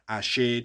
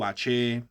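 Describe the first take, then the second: First: The middle consonant is a soft 'sh' sound. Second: The middle consonant is a sharper 'ch' sound. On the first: This is the original Yoruba form. "from Yoruba" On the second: This is the later Cuban form. "more Cubanized"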